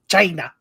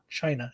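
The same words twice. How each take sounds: First: The word is said in an exaggerated imitated way. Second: The word is said in the ordinary way. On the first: Something other than the usual country is hinted at. "it's spelled C H Y like a like a hyphen N A" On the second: The usual name of the country is meant. "it was really not China"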